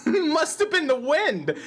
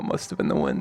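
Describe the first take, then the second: First: Skyrim quote. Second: Said in the usual way. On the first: Retold or imitated. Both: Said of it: "That's a Skyrim reference".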